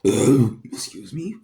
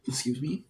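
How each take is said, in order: First: Burping while talking; burped. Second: Said in the usual way. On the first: Real, not acted. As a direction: excuse me through a burp. Burping mid-sentence, excusing self.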